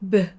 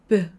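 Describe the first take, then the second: Both takes have the same delivery.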